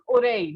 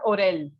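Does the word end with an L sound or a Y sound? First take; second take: Y sound; L sound. First: The double L is said as a Y sound. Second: The double L is said as an L sound. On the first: The speaker calls it right. "The pronunciation of I double L is ear" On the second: The speaker calls it wrong. "not oreille"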